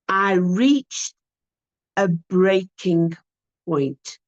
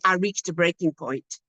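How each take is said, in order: First: It is slow and soft, with pauses. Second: It is said evenly, without any pauses. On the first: The speaker calls it right. "He paused and staged it... there were pauses and it was soft and it was slow" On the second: The speaker calls it wrong. "just saying"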